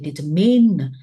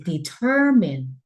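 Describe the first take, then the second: First: The stress is not on the middle syllable. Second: The stress is on the middle syllable. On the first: The speaker calls it wrong. "And Bill says" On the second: The speaker calls it right. "the right word is determine. The middle"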